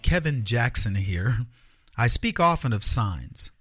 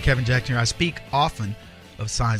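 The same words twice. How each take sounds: First: It is said at a slower pace. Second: It is said at a quicker pace.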